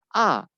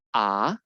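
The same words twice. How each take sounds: First: The pitch falls sharply from high to low. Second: The pitch rises from low to high. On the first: "itu turun dia. ... Ditekan" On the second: "nada kedua yang naik ke atas itu, nada kita naik juga"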